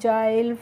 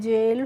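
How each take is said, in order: First: The vowel sounds like 'eye'. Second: The vowel sounds like 'ay'. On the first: The speaker calls it wrong. "इस तरीके से नहीं pronounce करना है" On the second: The speaker calls it right. "कैसे करना है बच्चों"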